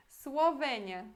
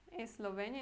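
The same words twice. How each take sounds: First: "Eslovênia" said swo-VEN-ya; "Eslovênia" the Polish way, w for ł; Polish Słowenia. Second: Said in the usual way. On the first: Shown as a demonstration. Teacher showing Polish "Eslovênia".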